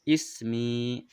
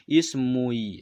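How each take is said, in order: First: No u sound comes before the final i. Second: A u sound comes before the final i. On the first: The speaker calls it right. "Enak sekali membacanya" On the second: The speaker calls it wrong. "Susah sekali bacanya"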